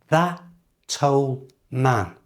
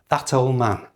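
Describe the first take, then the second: First: The phrase is said slowly. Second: The phrase is said at normal, fast speed. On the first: "slowly become" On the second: "And now at normal speed"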